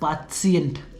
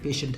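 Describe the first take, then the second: First: It is said the German way, with three syllables. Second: It is said the English way, 'pay-shent'. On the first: "यहाँ पर जर्मन पर भी सेम चीज़ है, बट उसे कैसे बोलते हैं?" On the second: "जो नॉर्मली हम पेशेंट बोलते हैं।"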